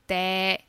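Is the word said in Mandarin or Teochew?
Teochew. It is said in Teochew pronunciation.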